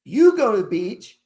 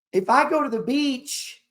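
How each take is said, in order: First: "You" pushed louder, ending on a rise; "You go to the beach", punch "You"; stress on YOU. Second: If I go: the word "I" lifted and leaned on; "If I go to the beach", hit "I" hardest; stress on I. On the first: Turning it on the viewer, stress on "You". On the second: Comparing himself with the viewer, stress on "I". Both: Shown as a demonstration. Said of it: "Is there a difference?".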